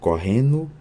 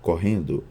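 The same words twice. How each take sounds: First: The d of the ending merges into n. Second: The d of the ending is clearly pronounced. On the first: "assimilação"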